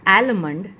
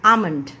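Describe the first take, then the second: First: The L sound is pronounced. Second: The L sound is silent. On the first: The speaker calls it wrong. "It's not आलमंड" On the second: The speaker calls it right. "एल जो है वो silent है"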